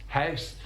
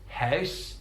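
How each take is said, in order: Both takes have the same delivery.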